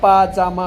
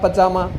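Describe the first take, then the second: First: The first vowel is long. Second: The first vowel is short. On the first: The speaker calls it right. "लेकिन पाजामा होता है" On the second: The speaker calls it wrong. "हम बोलते हैं पजामा पजामा"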